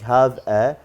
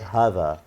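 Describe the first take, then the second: First: The two words are said separately. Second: The two words are linked together. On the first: The speaker calls it wrong. "instead of saying have a" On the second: The speaker calls it right. "we said have a"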